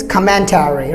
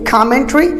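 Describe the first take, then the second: First: Commentary as COM-men-TAIR-ee; full "tary" in commentary; American commentary, prolonged ending; American pronunciation. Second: Commentary as COM-men-tree, higher and rising; short ending on commentary; British commentary, reduced "tary"; British pronunciation. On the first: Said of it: "and Americans commentary". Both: Shown as a demonstration.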